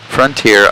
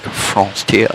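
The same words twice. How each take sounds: First: Said in the usual way. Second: "Frontier" as nasal French "fron-tee-ah", rising; mock French accent. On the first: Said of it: "from now on, when I see". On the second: Shown as a demonstration. Giving in to chat's correction, "Frontier" in mock French accent. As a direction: put a playful French lilt on "Frontier". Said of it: "I have to be like".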